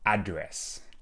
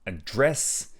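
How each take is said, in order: First: The stress is on the first syllable. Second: The stress is on the last syllable. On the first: The place where someone lives. "not address" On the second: To deal with a problem. "a little bit of stronger intonation on the last part of the word"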